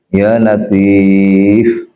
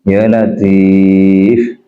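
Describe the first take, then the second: The two takes are said the same way.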